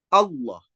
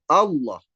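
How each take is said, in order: Both takes have the same delivery.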